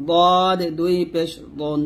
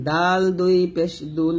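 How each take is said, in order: First: দদ and দন with a heavy, full D; emphatic Arabic dad in দদ; thick dad. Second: ডাল and দুন with a light, thin D; unthickened D in ডাল; thin dal. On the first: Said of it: "এটা হবে মোটা". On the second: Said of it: "এটা হবে পাতলা". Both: Shown as a demonstration.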